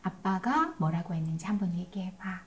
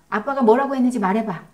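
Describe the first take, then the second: First: "아빠가 뭐라고 했는지 한번 얘기해봐" asked softly and unhurried; a softer voice, no pressure in it; calm gentle request. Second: "아빠가 뭐라고 했는지 말해봐" fired off fast and louder; quick, loud, interrogating command; pressing demand. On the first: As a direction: invite the child to repeat it back, gently. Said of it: "그런 다음에 이건 필요해요". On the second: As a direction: push the child for an answer, impatient. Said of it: "그때 말도 조심해야 합니다". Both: Shown as a demonstration.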